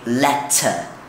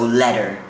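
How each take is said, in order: First: The middle T is pronounced as a clear T. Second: The middle T sounds like a soft D. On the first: "British people would usually say" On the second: "Americans, they say the T's are a D"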